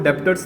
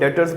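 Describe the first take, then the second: First: A b sound is heard before the t. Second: No b sound is heard before the t. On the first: The speaker calls it wrong. "इसको डेप्टर्स नहीं बोलना है" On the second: The speaker calls it right. "इसको डेटर्स बोलना है, बी silent रहता है"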